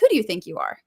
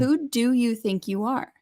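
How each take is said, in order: First: It sounds defensive and confrontational. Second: It sounds like a sincere, curious question.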